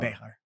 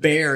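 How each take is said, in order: First: It has two syllables with an H sound. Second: It is one syllable with no H sound. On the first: This is the original form of the name. "it's actually Behar. the X is actually pronounced like an H" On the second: This is the anglicized form of the name. "Bear is the Anglo version of it"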